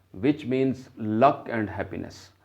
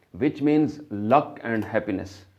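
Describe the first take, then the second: Both takes have the same delivery.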